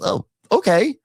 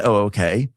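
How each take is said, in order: First: Higher sarcastic Oh, okay; knowing skeptical okay; mock dismissive. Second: Said in the usual way. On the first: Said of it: "Andy goes". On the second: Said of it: "it's not an".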